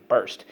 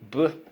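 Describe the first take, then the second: First: Said in the usual way. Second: B-er-s-t split into its sounds, a little higher; sounded out by parts. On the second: Shown as a demonstration. Teacher sounding out burst for students to echo. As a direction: break the word into B, er, s, t. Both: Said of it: "Let's go".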